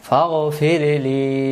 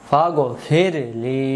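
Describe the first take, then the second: The two takes are said the same way.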